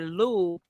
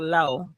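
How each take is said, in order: First: The vowel sounds like the one in 'too'. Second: The vowel sounds like the one in 'go'. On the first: It follows Louisiana Creole French usage. "I would have said Lou because I think Louisiana pronunciation" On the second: It follows the way the name's owner says it. "I'm glad you said pronounced like low"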